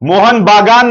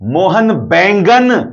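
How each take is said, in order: First: The second word is said as 'Bagan'. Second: The second word is said as 'Baingan'. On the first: This is the club's real name. The speaker calls it right. "Mohan बागान नहीं साहब" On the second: It turns the club's name into the word for eggplant. The speaker calls it wrong. "Mohan बैंगन, brinjal, ऑबजीन"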